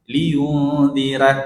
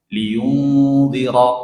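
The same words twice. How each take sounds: First: The r is light, with an a-like vowel. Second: The r is heavy, with an o-like vowel. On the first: The speaker calls it wrong. "saya letakkan di bawah ini huruf ra ... Itu bunyinya ra" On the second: The speaker calls it right. "Ini lidah saya angkat ke atas ini. Ro"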